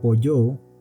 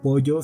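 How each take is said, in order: First: The last syllable is drawn out long. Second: The last syllable is said short and plain.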